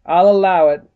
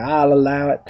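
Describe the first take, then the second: First: Louder judge's ruling in a light southern drawl; stern judge with a hint of southern drawl; slight southern drawl. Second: Judge's ruling in a light southern drawl; slight southern drawl. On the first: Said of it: "slightly southern drawl". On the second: Shown as a demonstration. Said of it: "this sort of slightly southern drawl".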